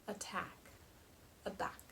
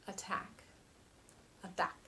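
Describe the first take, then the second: No difference in how they are said.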